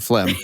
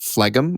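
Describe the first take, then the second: First: The word has its usual pronunciation. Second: The word is said the way it is spelled. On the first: "funnier than phlegm" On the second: "I thought it was pronounced phlegm, like it's spelled"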